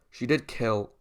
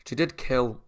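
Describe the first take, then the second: No difference in how they are said.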